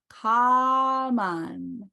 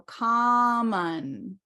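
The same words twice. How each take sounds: First: Common drawn out very slowly, open ah; very slow demo. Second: Common stretched slowly, first syllable open ah; slow demo. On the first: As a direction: say common very slowly, stressing the first ah. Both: Shown as a demonstration. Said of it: "ah, common".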